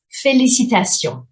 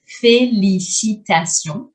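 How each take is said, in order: First: "Félicitations" said as fe-li-ci-ta-tions, falling at the end; careful French pronunciation; clear French model. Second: "félicitations" slower, with a rise on the final syllable; slow rising repeat. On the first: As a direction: spell out every syllable of "Félicitations". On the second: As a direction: stretch "félicitations" out and lift the end. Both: Shown as a demonstration.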